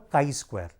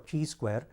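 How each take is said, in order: First: The first word starts with a K sound. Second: The first word does not start with K. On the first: The speaker calls it right. "we call it as the chi-square. ... it is K I" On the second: The speaker calls it wrong. "we don't call it as chi-square"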